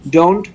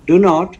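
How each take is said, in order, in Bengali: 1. এটা একটি ছোট সংক্ষিপ্ত শব্দ হিসেবে বলা হয়। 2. এটা দুটি আলাদা পূর্ণ শব্দ হিসেবে বলা হয়। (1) "সংক্ষিপ্ত আকারে বলবো তখন হবে ডোন্ট" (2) "আমরা যখন বলবো ডু নট"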